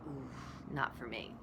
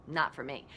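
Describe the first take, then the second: First: Hushed, much softer mock-scared ooh; retold scared refusal. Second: Said in the usual way. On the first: Student refusing spiritual yoga, hushed and mock-scared. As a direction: back away from it, quietly. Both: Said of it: "Like, I was scared".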